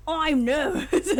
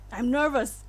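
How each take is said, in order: First: Slow, loud, hammed-up Australian accent. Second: Lightly attempted British accent. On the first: Streamer auditioning a voice for the main character, exaggerated Australian accent. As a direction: push the Australian accent high and drawn out. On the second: Streamer auditioning a voice for the main character, British accent. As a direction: try the line in a British accent. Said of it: "British voice".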